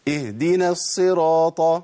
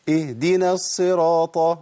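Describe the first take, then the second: No difference in how they are said.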